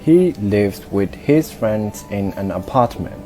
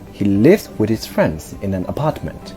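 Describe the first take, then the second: First: The words are stressed evenly, without clear beats. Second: Only lives, friends and apartment are stressed. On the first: The speaker calls it wrong. "my rhythm was completely wrong" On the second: The speaker calls it right. "I emphasize and stress these words: lives, friends, and apartment"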